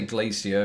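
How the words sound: Glacier is pronounced the American way. "I say glacier much in the same way that Americans do"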